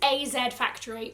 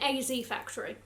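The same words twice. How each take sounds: First: Z is said the non-American way, as zed. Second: Z is said the American way, as zee.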